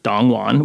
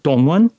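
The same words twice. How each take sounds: First: The name is said with an American-style pronunciation. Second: The name is said with a Korean-style pronunciation. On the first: "in a mostly Americanized way" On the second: "something closer to the Korean pronunciation"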